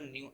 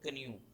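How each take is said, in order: First: The K sound is silent. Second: The K sound is pronounced. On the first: The speaker calls it right. "के की आवाज नहीं आ रही" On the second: The speaker calls it wrong. "अगर के की आती तो ये बनता कन्यू, जो गलत हो जाता"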